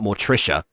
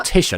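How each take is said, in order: First: The middle syllable is 'trish' with an r. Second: The middle syllable is 'tish' with no r. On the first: The speaker calls it wrong. "not Mortricia" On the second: The speaker calls it right. "Morticia, not Mortricia"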